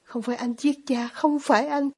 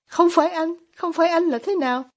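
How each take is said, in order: First: Understated firm insistence; mildly determined, narrated restatement; resolute repetition. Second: High-pitched startled question; taken aback, pitch jumping up; stunned. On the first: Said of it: "Alyosha lặp lại một cách kiên quyết". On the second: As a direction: narrate a mildly stunned echo. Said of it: "Ivan sững sờ". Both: A narrator's reading.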